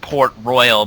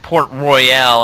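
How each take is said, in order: First: The final syllable is short and reduced. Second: The final 'al' is long and drawn out. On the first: The speaker calls it wrong. "not Port Royal" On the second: The speaker calls it right. "it's Port Royale"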